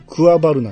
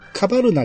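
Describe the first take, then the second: First: The name starts with a 'kwa' sound. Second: The name starts with a plain 'ka' sound. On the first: The small a is pronounced fully. "僕はいつもこれをクワバルナって言うんですよ。僕は発音するタイプなんで。" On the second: Some other people say it this way. "カバルナっていう人もいてるし"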